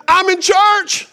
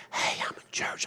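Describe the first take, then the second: First: High, drawn-out holler into the phone; loud phone yell. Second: Discreet whisper into a phone; hushed whisper. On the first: Retold or imitated. Preacher imitating older man on phone during service, yelled. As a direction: yell it slowly, with no attempt at discretion. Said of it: "he wasn't quiet about it". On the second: Acted. Preacher acting a polite churchgoer on the phone, whispered. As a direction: whisper it so nobody around hears. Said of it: "he wasn't quiet about it. He wasn't like".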